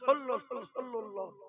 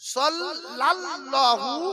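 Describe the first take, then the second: First: The second syllable is pronounced lul. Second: The second syllable is pronounced lal. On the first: The speaker calls it wrong. "অনেক বলে সল্লুল্লাহ" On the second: The speaker calls it right. "এর কথা হলো সাল্লাল্লাহু"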